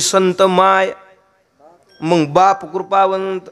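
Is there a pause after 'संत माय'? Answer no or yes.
yes. There is a pause after 'संत माय'. "असं थांबतात आणि मग पुढचं म्हणतात"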